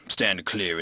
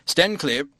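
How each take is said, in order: First: Low, measured vicar repeating a phrase; musing quotation. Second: High, brisk sailor-like call; intruder's warning call. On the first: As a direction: quote it thoughtfully, pitched down. Vicar musingly quotes the sailor's call. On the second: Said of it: "said the intruder in a formal voice". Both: A narrator's reading.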